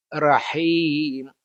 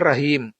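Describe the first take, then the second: First: Rahim with a light breathy h; correct pronunciation. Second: Rahim with a hard h; wrong pronunciation. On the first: Teacher contrasting correct rahim again. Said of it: "bukan rahim". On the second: Teacher contrasting wrong rahim again. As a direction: say rahim with a harsh throat h. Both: Shown as a demonstration.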